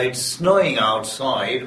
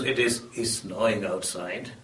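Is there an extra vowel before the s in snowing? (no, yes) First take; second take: no; yes. First: Snowing starts directly with the s sound. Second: A short vowel is added before snowing.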